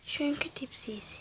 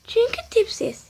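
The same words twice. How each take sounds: First: Very soft whisper; whispered repeat. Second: High-pitched, softer teasing answer. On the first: Gamer repeating the answer to self, whispered. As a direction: repeat it under your breath. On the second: Gamer answering why they're busy, high teasing. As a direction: say it up high, lightly. Mocking answer, then repeated under breath. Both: Pretend.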